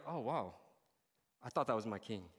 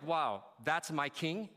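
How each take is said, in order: First: Low, deflated disappointment; let-down disbelief. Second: Slow, admiring wonder; awed pride. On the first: Follower doubting the king on the cross, let-down disbelief. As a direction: let it sink, softer, in quiet dismay. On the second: Follower looking at Jesus on the cross, awed pride. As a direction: savor it as a proud follower. Proud reaction contrasted with disappointed one. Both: Acted.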